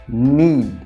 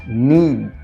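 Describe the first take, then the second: The two takes are said the same way.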